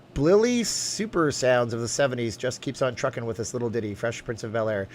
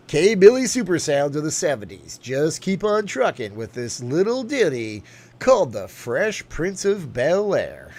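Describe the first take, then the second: First: Said in the usual way. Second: Slow, louder radio DJ intro. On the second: Acted. Streamer doing a chat-requested DJ intro, radio voice. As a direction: spin it like a seventies DJ. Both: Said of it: "Do Larry King voice and intro".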